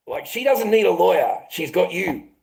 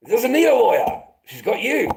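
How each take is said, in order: First: Said in the usual way. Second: Higher and louder, biting sarcasm; louder sarcastic repeat. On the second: Real, not acted. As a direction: hammer the point home the second time. Repeated with more force.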